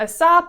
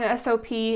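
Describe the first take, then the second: First: It is said as one word, sop. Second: It is spelled out as three letters. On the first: "A S O P" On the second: "or an S O P"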